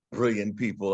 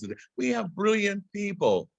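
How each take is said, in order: First: Said in the usual way. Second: "we" lifted much higher on the repeat; emphatic restatement. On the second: Shown as a demonstration. To the audience, the repeat of brilliant people with high emphasis on "we".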